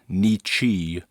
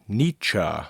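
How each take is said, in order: First: The name does not end like 'meet ya'. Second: The name ends like 'meet ya', with 'chuh'. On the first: The speaker calls it wrong. "not Nietzsche" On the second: The speaker calls it right. "The name is pronounced Nietzsche"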